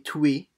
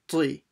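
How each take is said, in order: First: A strong w-like glide follows the t. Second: No strong w-like glide follows the t. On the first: The speaker calls it wrong. "not too much like a we sound. You shouldn't be tui" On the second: The speaker calls it right. "So it's tui"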